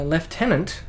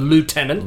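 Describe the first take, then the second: First: It is said with the British pronunciation. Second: It is said with the American pronunciation.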